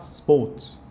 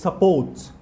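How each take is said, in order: First: The first vowel is dropped entirely. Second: The first vowel is clearly pronounced. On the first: The speaker calls it wrong. "not sports" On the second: The speaker calls it right. "the word is supports"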